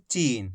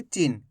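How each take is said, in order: First: चीन with a long, stretched ee; drawn-out vowel. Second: चीन with a short, quick i; short vowel. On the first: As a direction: stretch the ee in चीन, letting it fall. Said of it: "खींच खींच के पढ़ेंगे". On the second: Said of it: "ऐसे नहीं पढ़ेंगे". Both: Shown as a demonstration.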